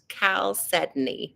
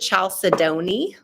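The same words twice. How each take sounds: First: The word is not sounded out as spelled. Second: The word is sounded out just as spelled. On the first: The speaker calls it right. "but it's actually pronounced chalcedony" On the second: The speaker calls it wrong. "some people pronounce it chalcedony. That's the um, like, you know, literal phonetic way to say it"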